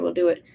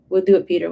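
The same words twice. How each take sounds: First: Said in the usual way. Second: Louder, punched "do" in "We'll do it"; emphatic vow. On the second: Acted. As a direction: declare "We'll do it" firmly, hitting "do". Servants promise together, then repeat.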